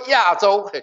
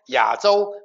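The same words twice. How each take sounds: First: It is said the mainland Mandarin way. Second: It is said the Taiwanese Mandarin way. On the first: "你们说亚洲" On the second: "我说亚洲"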